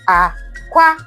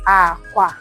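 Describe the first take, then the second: First: The first syllable is low, the second high. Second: Both syllables are said on a low tone. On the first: "And then the low, high" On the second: "The low, low is called aqua"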